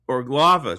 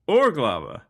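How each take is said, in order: First: The stress is not on the first syllable. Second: The stress is on the first syllable. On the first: The speaker calls it wrong. "Put the stress on the first syllable and you're close" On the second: The speaker calls it right. "Yep, there you go"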